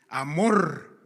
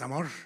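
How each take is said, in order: First: The final r is a strong rolled trill. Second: The final r is a single short tap. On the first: The speaker calls it right. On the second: The speaker calls it wrong.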